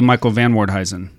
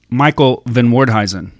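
First: 'Van' is said with a vowel like 'van'. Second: 'Van' is said with a vowel like 'Venn'. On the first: "I used to call you" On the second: "didn't catch the subtle difference there"

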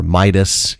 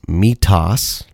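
First: The middle consonant sounds like a d. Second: The middle consonant sounds like a t. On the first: The speaker calls it wrong. "A lot of people like to think it's Midas" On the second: The speaker calls it right. "It is Mitas, M-I-T-A-S"

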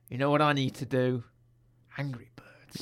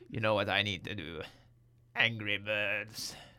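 First: It is said in the speaker's ordinary voice. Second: It is said in a put-on villain character voice.

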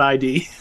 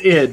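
First: It is said as two spelled-out letters. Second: It is said as one short syllable. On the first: The speaker calls it wrong. "not ID" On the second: The speaker calls it right. "It's id"

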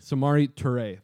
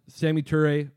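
First: The first name has three syllables. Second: The first name has two syllables. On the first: The speaker calls it right. "There we go. Much better" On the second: The speaker calls it wrong. "I didn't pronounce that correctly"

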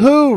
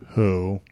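First: It is said in an eager, lively tone. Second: It is said in an angry, flat tone. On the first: The speaker calls it right. "try saying that again with like some enthusiasm" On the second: The speaker calls it wrong. "You said that so angry"

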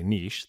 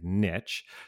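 First: Niche is pronounced the non-American way. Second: Niche is pronounced the American way. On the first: "in America, they don't say niche" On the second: "they say niche"

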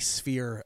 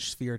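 First: The word begins with an 's' sound. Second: The word begins with an 'sh' sound. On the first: The speaker calls it right. "It's a S, not a sh" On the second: The speaker calls it wrong. "I've been saying it with an SH this entire time"

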